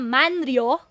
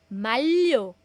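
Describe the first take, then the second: First: The middle is pronounced as N followed by R. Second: The middle is pronounced as a double L. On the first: The speaker calls it wrong. "imbis na manryo, walang manryo" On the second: The speaker calls it right. "Ang basa po nito ay malyo"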